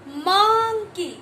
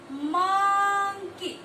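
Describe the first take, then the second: First: "मंकी" loud, first syllable stretched in a rising-falling arc; phonics sounding-out. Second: "मंकी" very slow, first syllable held on one level note; phonics sounding-out. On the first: Teacher sounding out an M word, loud stretched "मंकी". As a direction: swell on the start of "मंकी", then drop. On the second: Teacher sounding out an M word, very long sing-song "मंकी". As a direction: hold the start of "मंकी" long, then drop on the end. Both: Shown as a demonstration. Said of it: "इस तरीके से".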